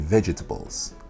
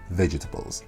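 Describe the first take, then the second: First: The word is said with four syllables. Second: The word is said with three syllables. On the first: The speaker calls it wrong. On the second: The speaker calls it right.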